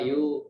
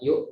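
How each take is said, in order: First: The final sound is held too long. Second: The final sound is cut off quickly. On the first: The speaker calls it wrong. "nggak boleh berlama-lama" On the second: The speaker calls it right. "harus langsung cepat"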